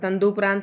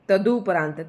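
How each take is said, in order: First: The first syllable has an added nasal sound. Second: The first syllable has no nasal sound. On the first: The speaker calls it wrong. "तंदुपरांत नहीं, जैसे कि मैंने अभी उच्चारण कर दिया था" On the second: The speaker calls it right.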